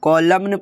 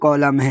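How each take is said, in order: First: The final N sound is pronounced. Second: The final N is silent. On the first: The speaker calls it wrong. "ये कॉलम नहीं है" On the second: The speaker calls it right. "कॉलम है rule के according"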